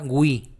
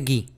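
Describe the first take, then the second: First: It is said like gwi, with a u sound. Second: It is said like gi, without a u sound. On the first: This is how Italian says it. "También se va a pronunciar la U" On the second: This is how Spanish says it. "Sería gui"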